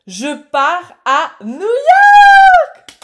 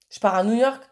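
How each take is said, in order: First: High, very loud drawn-out scream of joy; real shriek of excitement; ecstatic shout. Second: Said in the usual way. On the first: Real, not acted. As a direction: yell the big news, stretching every word. Shrieks out the big news again.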